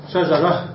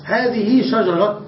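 First: "شجرة" stopped on a breathed h, "shajarah"; pausal h ending. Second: "شجرة" stopped on a sounded t, "shajarat"; pausal t ending. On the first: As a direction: end "شجرة" on h, no t. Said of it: "نقف عليها بالهاء". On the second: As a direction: slowly end "شجرة" on a hard t. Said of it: "سمع الوقف فيها بالتاء". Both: Shown as a demonstration.

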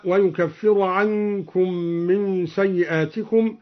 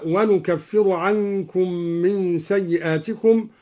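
First: Said in the usual way. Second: "ونكفر" said wanukaffir, with n; nun of majesty. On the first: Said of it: "قرأ الدوري بنون العظمة". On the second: Shown as a demonstration. Teacher showing al-Duri's reading, "ونكفر" with nun. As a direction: start the verb with n in "ونكفر". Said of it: "قرأ الدوري بنون العظمة هكذا".

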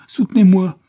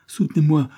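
First: Hurlé bien plus haut et bien plus fort; cri de terreur. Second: Répété en montant, plus haut et plus fort; début de panique de cauchemar; supplique angoissée. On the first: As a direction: crier comme en plein cauchemar. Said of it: "comme s'il était en proie à un cauchemar horrible". (l'enfant terrifié hurle pour qu'on le soutienne) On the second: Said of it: "répétait sans cesse". (l'enfant en plein cauchemar implore, plus haut) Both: Acted.

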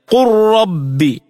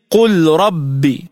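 First: "قل ربي" as qur-rabbi, L merged into a doubled R; full idgham. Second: "قل ربي" with the L of قل sounded before the R; unassimilated lam. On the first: Tajweed teacher showing the merger, "قل ربي" said qur-rabbi. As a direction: drop the L of قل into a rolled RR in "قل ربي". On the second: Tajweed teacher showing the written form, clear L in "قل ربي". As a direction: slowly separate L and R in "قل ربي". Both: Shown as a demonstration. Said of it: "تلفظ هكذا".

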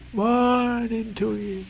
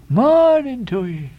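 First: High, very slow, softer "Morning to ye"; Elijah's receding farewell. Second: High, slow, ringing "Morning to ye"; Elijah's farewell. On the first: Elijah moving off, high slow goodbye, fading. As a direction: let the parting fade as he moves off. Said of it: "moving off". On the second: Elijah calling goodbye to the sailors, high and slow. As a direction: sing out the parting in full voice. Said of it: "he rejoined again, moving off". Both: A narrator's reading.

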